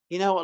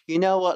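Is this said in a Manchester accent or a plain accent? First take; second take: plain; Manchester. First: It is said in the speaker's own accent. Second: It is said in Patrick's Manchester accent.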